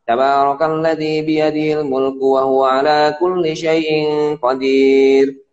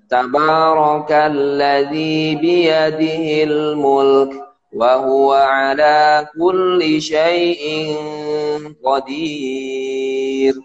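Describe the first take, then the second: First: It is recited rather fast. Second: It is recited slowly and carefully.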